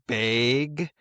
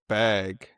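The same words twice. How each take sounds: First: The vowel sounds like the vowel in 'bay'. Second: The vowel is a plain short a. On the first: "not like bag, like not B A Y" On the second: "I think I I always said like bag"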